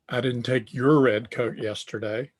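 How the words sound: The stress falls on the word your. The coat taken belongs to someone else. "the inflection there is on your"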